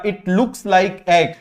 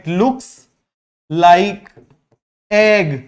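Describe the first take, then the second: First: Said in the usual way. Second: "It looks", "like", "egg" split by long pauses; spaced-out teacher repetition of "It looks like egg"; word by word. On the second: Shown as a demonstration. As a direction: dictate "It looks... like... egg" with a clear gap before "like" and "egg". Teacher repeats phrase for class, word by word.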